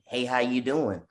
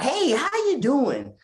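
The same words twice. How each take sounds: First: It is said in a plain, genuine way. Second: It is said in an overdone, exaggerated way.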